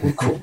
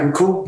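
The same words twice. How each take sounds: First: "We're cool." said as a settled statement, without the questioning rise; confirming statement. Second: "We're cool?" lifted high at the end, as a question; questioning tune. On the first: Musician reassuring bandleader, "We're cool." as a quiet confirmation. Retold answer confirming the truce. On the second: Bandleader checking with musician after row, "We're cool?" rising high. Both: Retold or imitated.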